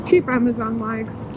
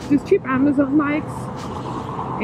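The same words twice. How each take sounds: First: Muffled inside a helmet; talking through a helmet, muffled. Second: Slow and muffled in a helmet; slow muffled repeat. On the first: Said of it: "my voice is a little bit muffled". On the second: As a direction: say it again slowly through the helmet. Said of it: "I have to adjust my helmet". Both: Real, not acted.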